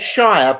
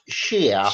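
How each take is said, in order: First: The vowel rhymes with 'fire'. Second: The vowel rhymes with 'fear'. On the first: This is how the spelling suggests it. The speaker calls it wrong. "It is written as Shire" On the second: This is how it is actually said in England. The speaker calls it right. "but it is pronounced Sheer"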